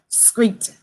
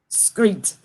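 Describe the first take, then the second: First: The word begins with a 'skr' sound. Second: The same.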